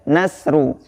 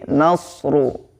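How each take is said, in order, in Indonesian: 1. Bunyi s-nya ringan dan tipis. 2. Bunyi s-nya berat dan tegas. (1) "jangan sampai kita membaca nasru" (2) "huruf shadnya perhatikan"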